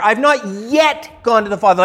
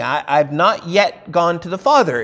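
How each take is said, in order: First: "not yet" pressed, with "yet" as the key word; stress on yet. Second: Said in the usual way. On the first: Shown as a demonstration. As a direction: lean on "yet" so it means not gone so far. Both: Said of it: "is the yet is emphasized there".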